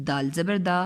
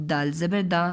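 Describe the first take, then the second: No difference in how they are said.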